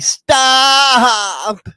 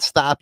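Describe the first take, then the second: First: The word is stretched out long. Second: The word is said short and clipped. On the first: "draw it out and make it longer" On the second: "Instead of saying stop"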